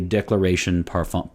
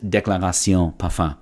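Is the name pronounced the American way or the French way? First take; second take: American; French. First: The name is said with American English sounds. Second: The name is said with French sounds. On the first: "In American English, it would be" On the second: "it is Déclaration Parfum"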